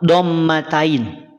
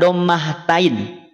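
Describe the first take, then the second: First: No h sound is heard before 'tain'. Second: An h sound is heard before 'tain'. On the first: The speaker calls it right. "Kalau mau bilang dommah tain, haknya buang" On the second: The speaker calls it wrong. "bukan dommah tain"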